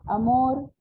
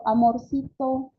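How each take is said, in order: First: Said in the usual way. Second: Slow, higher-pitched cutesy "Amorcito"; "Amorcito" cooed in a childlike voice; childish endearment. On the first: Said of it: "Se escucha otro". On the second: Shown as a demonstration. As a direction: stretch "Amorcito" as sweet baby talk. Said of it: "ha bajado mi entonación".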